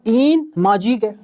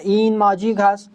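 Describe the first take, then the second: First: The verb is shortened to a final e. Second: The verb ast is said in full. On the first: This is the everyday conversational form. "मैं बोल दूंगा" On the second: This is the formal written form. "मैं भी नहीं बोलूंगा"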